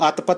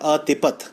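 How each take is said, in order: First: The word is said in two syllables. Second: The word is said in three syllables. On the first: The speaker calls it wrong. "ਇਹਨੂੰ ਅਤਪਤ ਨਹੀਂ ਪੜ੍ਹਨਾ" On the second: The speaker calls it right. "ਇਹਨੂੰ ਪੜ੍ਹਨਾ ਹੈ ਅਤਿਪਤ"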